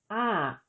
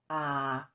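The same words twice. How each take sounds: First: The syllable is said with a falling tone. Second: The syllable is said with a low tone. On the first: "with tone mark two, the tone is falling" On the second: "With tone mark one, the tone is low"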